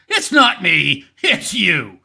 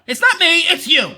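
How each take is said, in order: First: Low-pitched mock blame-shifting; low mocking denial; George Costanza. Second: Mock protest in a lively, raised voice; insistent mock denial; mock blame-shifting. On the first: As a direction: deliver it as a deep, deadpan motto. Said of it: "George Costanza School of Philosophy". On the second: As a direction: imitate someone pushing the blame away. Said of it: "come out right and say".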